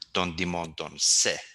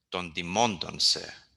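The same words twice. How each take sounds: First: The stress falls on the final short word. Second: The stress falls on the word before the last. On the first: The speaker calls it wrong. "That's wrong, ... You should not be um, stressing those last words" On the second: The speaker calls it right. "Usually the tone is uh, brought back to the previous word"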